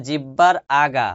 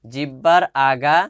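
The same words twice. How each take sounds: The two takes are said the same way.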